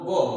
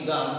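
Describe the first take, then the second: First: The vowel is an 'o' sound. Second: The vowel is an open 'aa' sound. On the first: This is the Charotari dialect pronunciation. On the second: This is the standard pronunciation.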